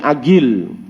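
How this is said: The middle consonant is a hard g sound. "Dia bunyi ga"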